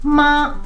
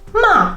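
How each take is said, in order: First: The pitch stays high and level. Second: The pitch falls sharply from high. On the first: It means mother. "in a flat tone, the first tone means mummy" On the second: It means scolding. "the fourth tone, very straightforward"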